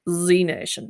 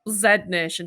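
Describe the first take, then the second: First: The letter is pronounced zee, American style. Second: The letter is pronounced zed, British style. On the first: The speaker calls it right. "But in American English, it's Z Nation" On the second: The speaker calls it wrong. "doesn't sound quite as good, does it, in in in English?"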